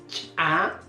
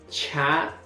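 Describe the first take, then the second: First: The ch is released with a sharp explosive pop. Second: The ch is followed by a puff of air. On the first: "el fonema ya reforzado" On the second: "En el segundo caso encontramos el aspirado"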